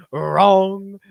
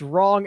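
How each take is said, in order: First: A slow, drawn-out imitation of Mark's accent on wrong; imitating Mark's accent. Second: Said in the usual way. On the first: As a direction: say wrong slowly, copying Mark's odd accent. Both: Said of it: "Mark's wrong accent".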